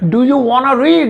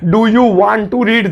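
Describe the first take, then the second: First: Want and to blend into one short word. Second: Want and to are said fully and separately. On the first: "अब वांना कर दिया" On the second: "दो तीन घंटे लग रहे हैं इसे बोलने में"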